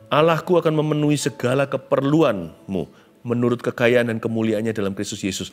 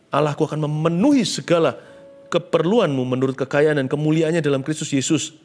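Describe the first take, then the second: First: It is read in a plain, neutral tone. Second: It is read in a warm, emotional tone.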